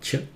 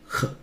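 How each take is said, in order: First: It is the English ch sound as in church. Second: It is a breathy German ch sound. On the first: The speaker calls it wrong. "The C H in German is not ch" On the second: The speaker calls it right. "it's ch"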